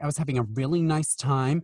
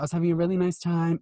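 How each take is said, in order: First: It is said in an exaggerated Californian style. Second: It is said in a relaxed, chill manner. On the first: The speaker calls it wrong. "oh God, she doesn't sound like she's from the OC" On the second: The speaker calls it right. "She's much more chill"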